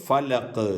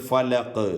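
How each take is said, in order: No difference in how they are said.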